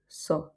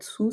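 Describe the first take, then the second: First: The vowel is an open 'o' sound. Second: The vowel is an 'oo' sound. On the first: The speaker calls it right. "ça va être so" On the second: The speaker calls it wrong. "ça va pas être sou"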